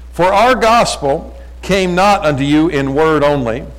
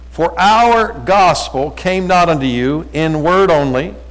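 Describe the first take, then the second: The two takes are said the same way.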